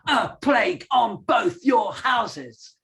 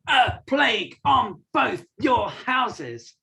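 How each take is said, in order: First: It flows with emotion, no punching. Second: Each word is punched out separately.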